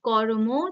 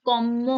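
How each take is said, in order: First: An r sound comes before the m. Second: The r is replaced by a doubled m. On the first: "কর্ম ছিল" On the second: "র আর ম মিলে শুধু ম হয়ে গেল"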